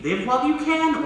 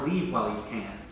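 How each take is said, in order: First: "Live while you can" said high and bright, leaning on "you"; hopeful reading. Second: "Leave while you can" said low and soft, weight on "Leave"; grim reading. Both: Shown as a demonstration. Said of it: "She's saying".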